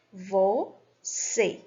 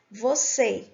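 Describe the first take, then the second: First: "Você" drawn out as Vo - cê with a pause between; split into syllables. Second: Said in the usual way. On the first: Shown as a demonstration. Teacher repeating the word for students, "Você" split syllable by syllable. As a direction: break "Você" slowly into its two syllables. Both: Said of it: "do mesmo jeito".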